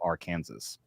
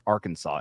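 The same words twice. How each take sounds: First: The word ends like the word Kansas. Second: The word ends with a 'saw' sound. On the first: This was the original pronunciation. "instead of Arkansas" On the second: This is the current official pronunciation. "now it's pronounced Arkansas"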